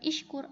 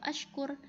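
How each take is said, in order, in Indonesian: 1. Kata ini diawali dengan vokal i. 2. Kata ini diawali dengan vokal a. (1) "bukan ishkur" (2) "atau ashkur"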